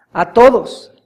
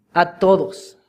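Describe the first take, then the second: First: Louder "a todos", hit hard; emphatic repeat. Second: Said in the usual way. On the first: Shown as a demonstration. Preacher insisting that salvation is for all, emphatic. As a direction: punch "a todos" the second time.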